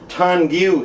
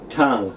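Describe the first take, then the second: First: The word ends with an added vowel sound. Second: The word ends on the ng sound alone. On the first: The speaker calls it wrong. "it looks like it ought to be pronounced Tongu" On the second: The speaker calls it right. "is actually tongue"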